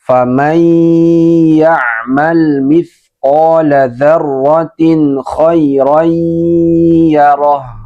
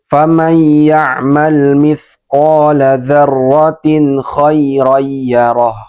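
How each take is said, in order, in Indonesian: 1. Bunyi nun yang dilebur dibaca dengan dengung dan ditahan lebih lama. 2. Bunyi nun yang dilebur dibaca terburu-buru tanpa ditahan dengung. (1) "bacaan yang benar ... dimasukkan, didengungkan dan ditahan" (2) "ini bacaan yang salah ... membaca idgham dengan terburu-buru"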